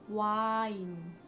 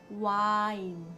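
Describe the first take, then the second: Both takes have the same delivery.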